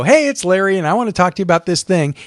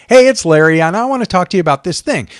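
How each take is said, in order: First: Easy "Hey", then quick relaxed run; casual friendly intro. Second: Bright, casual "Hey", then quick and easy; casual friendly intro. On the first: Presenter demos a casual on-camera intro again: friendly and quick. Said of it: "if you just come on and go". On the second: Presenter demos a casual on-camera intro: friendly and quick. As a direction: greet the viewer like a friend, lightly. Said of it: "I just come on and go". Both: Shown as a demonstration.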